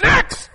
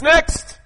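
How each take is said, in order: First: High loud call of next. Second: Sharp loud call of next. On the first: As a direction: sing out next like a clerk. Angel calls next, your turn. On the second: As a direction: call the next one in like a clerk. Angel calls next in queue. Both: Retold or imitated.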